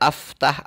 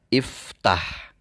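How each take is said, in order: First: The word begins with an a vowel. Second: The word begins with an i vowel. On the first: The speaker calls it wrong. "Tidak aftah" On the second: The speaker calls it right. "harus dibaca dengan harokat kasroh"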